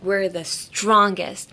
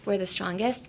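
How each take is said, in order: First: The stress falls on the word strongest. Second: No word is stressed more than another. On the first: "if you put emphasis on strongest" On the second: "without any emphasis on anything"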